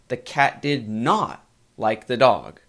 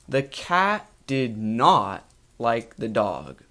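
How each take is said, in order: First: The word not is stressed. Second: No word is given special stress.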